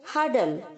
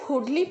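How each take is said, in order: First: It has an 'uh' vowel and no final 'ee'. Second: It has an 'oo' vowel and a final 'ee'. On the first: The speaker calls it right. "इसे हम कहेंगे हडल" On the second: The speaker calls it wrong. "इसे हम हुडली pronounce नहीं करेंगे"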